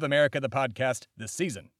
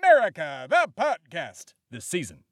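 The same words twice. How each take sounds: First: It is said at a normal speaking volume. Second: It is shouted loudly. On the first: The speaker calls it wrong. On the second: The speaker calls it right.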